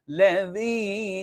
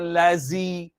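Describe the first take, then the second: First: The middle consonant is a light th sound. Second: The middle consonant is a buzzing z sound. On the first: The speaker calls it right. "Sangat ringan" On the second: The speaker calls it wrong. "jangan lazi"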